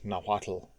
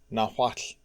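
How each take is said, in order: First: The final tl is voiced, like an English L. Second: The final tl is voiceless, only escaping air. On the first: The speaker calls it wrong. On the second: The speaker calls it right. "with only the light sound of escaping air"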